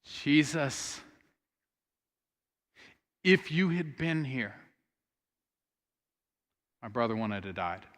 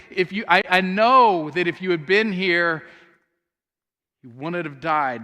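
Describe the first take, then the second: First: Softly grieving plea. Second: Louder, firm statement of trust; earnest faith. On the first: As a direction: let the grief sit on every word. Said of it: "she says". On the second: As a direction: declare it with conviction. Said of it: "She is expressing her faith". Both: Retold or imitated.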